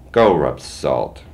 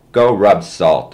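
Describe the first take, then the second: First: Slow spat-out defiance. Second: Slow, loud defiant yell, higher; a kid's slow defiant holler. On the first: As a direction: spit the words on the way out. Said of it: "he spat". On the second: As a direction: shout it back slowly through the door. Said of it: "I yelled". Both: A narrator's reading.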